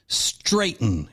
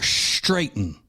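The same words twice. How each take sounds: First: The word begins with a plain 'str' sound. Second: The word begins with a 'shtr' sound. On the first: The speaker calls it right. "It is straighten" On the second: The speaker calls it wrong. "It's not straighten"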